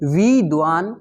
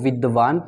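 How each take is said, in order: First: The first vowel is held long. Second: The first vowel is held short. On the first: The speaker calls it wrong. "वी को अत्यधिक उठाकर बोला गया है" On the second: The speaker calls it right. "लय नहीं टूटेगी"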